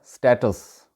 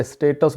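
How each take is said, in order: First: स्टेटस with a short open "a", stat-us; correct pronunciation. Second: स्टेटस with a long "ay", stay-tus; South Asian-style स्टेटस with an ay vowel; local pronunciation. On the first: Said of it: "जो सही तलफ़ुज़ है". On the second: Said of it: "वहाँ पे स्टेटस बोला जाता है". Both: Shown as a demonstration.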